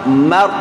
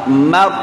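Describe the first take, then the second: The two takes are said the same way.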